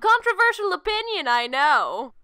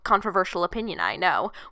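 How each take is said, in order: First: It is said in a put-on character voice. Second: It is said in the speaker's normal voice.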